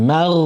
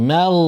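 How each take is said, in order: Both takes have the same delivery.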